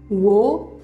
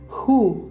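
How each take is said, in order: First: The initial W sound is pronounced. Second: The initial W sound is silent. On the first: The speaker calls it wrong. "atau wo" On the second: The speaker calls it right. "W-nya tidak dibaca"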